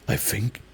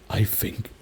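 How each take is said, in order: No difference in how they are said.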